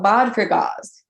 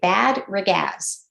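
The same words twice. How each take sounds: First: The name is said with Swiss pronunciation. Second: The name is said with English pronunciation. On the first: The speaker calls it right. "more Swiss intonation" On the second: The speaker calls it wrong. "if you look at it and you were saying it in English"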